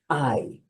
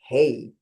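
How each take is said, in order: First: The vowel sounds like the English word eye. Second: The vowel sounds like the English word hey. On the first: The speaker calls it right. "this should be pronounced I" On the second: The speaker calls it wrong. "the temptation is to pronounce this as hey"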